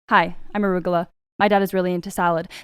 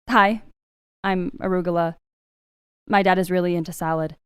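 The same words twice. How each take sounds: First: The lines run together without timing pauses. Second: The lines are separated with deliberate timing pauses. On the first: The speaker calls it wrong. "I'm going to say it without landing the lines and bleeding into the characters" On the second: The speaker calls it right. "And then landing those lines"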